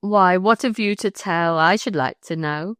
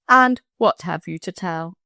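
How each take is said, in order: First: Rustic wife's pointed question; countryman's wife, quoted. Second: Said in the usual way. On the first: Retold or imitated. Countryman quotes his wife questioning him, rustic and pointed. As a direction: demand it as a countrywoman would. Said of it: "Just like that".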